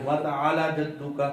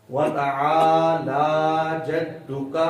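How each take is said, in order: First: وَتَعَالَى جَدُّكَ with لام cut short; shortened vowel. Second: Slow وَتَعَالَى جَدُّكَ with لام held long; lengthened vowel. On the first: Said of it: "کئی تو اس کو بھی لمبا نہیں کریں". (وَتَعَالَى جَدُّكَ، لام لمبا کیے بغیر) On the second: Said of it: "لمبا کر کے پڑھنا ہے". (وَتَعَالَى جَدُّكَ، لام کو لمبا کر کے) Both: Shown as a demonstration.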